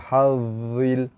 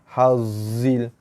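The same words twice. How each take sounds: First: The middle consonant is a voiced th. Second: The middle consonant is a buzzing z. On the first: The speaker calls it right. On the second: The speaker calls it wrong.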